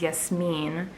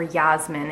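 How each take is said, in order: First: Yasmin said the Arabic way, yes-MEEN; Arabic pronunciation. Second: Yasmin said the English way, YAZ-min; English pronunciation. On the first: Vlogger giving viewers her real name, Yasmin in Arabic pronunciation. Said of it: "my name in Arabic as Yasmin". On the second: Vlogger giving her name's English version, Yasmin in English pronunciation. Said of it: "or Yasmin in English". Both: Shown as a demonstration.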